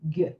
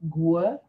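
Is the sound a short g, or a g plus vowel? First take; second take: short g; g plus vowel. First: It is one short g sound. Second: It is a longer g with a vowel. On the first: The speaker calls it right. "a very short sound for those two letters" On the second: The speaker calls it wrong. "You don't need to say gue, which I hear a lot. As a longer sound"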